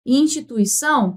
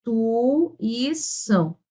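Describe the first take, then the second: First: Said in the usual way. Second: Instituição slowly, syllable by syllable, with pauses between; split into syllables. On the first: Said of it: "como é que você faz aqui". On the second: Shown as a demonstration. Teacher showing students the syllable split, slowly. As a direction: stretch out Instituição, pausing at each syllable break. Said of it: "Nós temos que fazer o seguinte".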